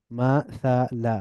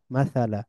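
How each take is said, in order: First: মাসালা slowly as ma, tha, la; syllable by syllable. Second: মাসালা as one joined word, ma-tha-la; blended together. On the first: Teacher breaking down the word, মাসালা syllable by syllable. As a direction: split মাসালা into three drawn-out syllables. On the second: Teacher reading joined-up, মাসালা blended into one word. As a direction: run মাসালা together with a fall. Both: Shown as a demonstration. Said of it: "একটু মিলিয়ে মিলিয়ে পড়ব".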